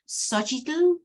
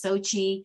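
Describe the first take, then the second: First: The name ends with a final 'tl' sound. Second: The name ends without a final 'tl' sound. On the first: "the pronunciation in the Aztec language is actually" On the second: "you can pronounce my name as Sochi"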